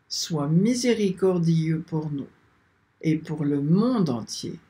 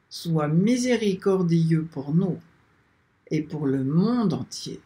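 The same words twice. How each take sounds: The two takes are said the same way.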